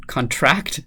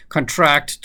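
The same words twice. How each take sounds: First: "contract" said CON-tract, stumbling onto the first syllable; "contract" with the weight on CON, like the noun; stress on first syllable. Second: "Contract" said con-TRACT, first vowel reduced; "Contract" with the weight on TRACT, like the verb; stress on second syllable. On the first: Reading the crossword answer aloud, stress on CON. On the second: Correcting the reading of the answer, stress on TRACT. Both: Shown as a demonstration. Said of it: "make sure to put the emphasis on the right syllable".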